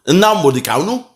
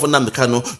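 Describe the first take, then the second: First: Mock Yoruba accent. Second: Said in the usual way. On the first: Commentator imitating how his opponent says the name, mock Yoruba accent. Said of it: "that Yoruba accent be that". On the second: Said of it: "That's your accent".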